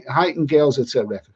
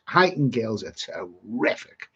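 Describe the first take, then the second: First: Fix the name: Huyton, two syllables ending in n; self-correction to the right Huyton; corrected place name. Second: Heightened read as HIGHT-nd, a clear d at the end; slow misread of the place name Heightened; misreading Huyton. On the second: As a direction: say Heightened with a hard final d, as if the place were Heightened. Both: Real, not acted. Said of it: "Yeah, but Hei".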